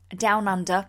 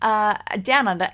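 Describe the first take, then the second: First: It is said in an English accent. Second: It is said in an Australian accent. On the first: The speaker calls it wrong. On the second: The speaker calls it right.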